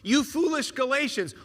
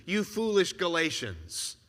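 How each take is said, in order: First: Sharp, higher scolding cry of You foolish Galatians; stern rebuke. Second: Weary rebuke. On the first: Paul scolding the Galatians, a sharp rebuke. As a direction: scold them like an exasperated apostle. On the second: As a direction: let the scolding sink into a sigh of disappointment. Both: Retold or imitated. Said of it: "take this tone with you".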